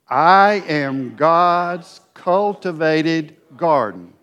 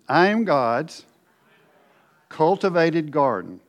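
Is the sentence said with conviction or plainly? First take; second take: conviction; plainly. First: It is said forcefully, with strong conviction. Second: It is said in a plain, ordinary way.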